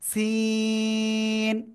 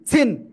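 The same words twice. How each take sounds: First: The vowel is stretched long. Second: The vowel is cut short. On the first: The speaker calls it right. "চার লিপ টান।" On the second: The speaker calls it wrong. "এভাবে বললে হবে না।"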